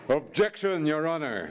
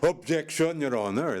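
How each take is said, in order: First: It is said very loudly, a notch higher. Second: It is said loudly.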